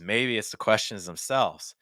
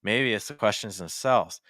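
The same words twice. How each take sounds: No difference in how they are said.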